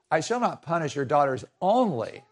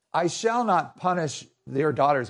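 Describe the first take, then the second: First: "only" said last with a falling tune, leaned on; stress on only. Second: Said in the usual way. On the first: Retold or imitated. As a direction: put weight on the final "only". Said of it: "but what he really means is". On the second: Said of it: "well, he says".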